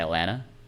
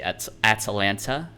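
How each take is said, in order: First: The T sounds are dropped. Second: The T sounds are clearly pronounced. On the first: "I just say Atlanta. I don't pronounce any of the T's" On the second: "I don't say at Atlanta"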